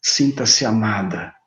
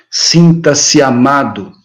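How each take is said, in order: First: Slow, softer, lower murmur; tender ear-whisper of love. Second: Said in the usual way. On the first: Shown as a demonstration. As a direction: breathe it gently into their ear. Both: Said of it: "naquele tom de voz bem baixinho no ouvido".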